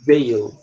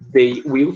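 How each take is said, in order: First: The two words are fused into one syllable. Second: Both words are said fully and separately. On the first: "é a maneira como eles pronunciam" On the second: "they will fica assim"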